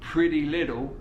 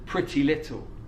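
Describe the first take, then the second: First: The t sounds are soft flaps like a d. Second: The t sounds are crisp, fully released stops. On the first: It flows more smoothly and is easier to say. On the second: It is harder to say.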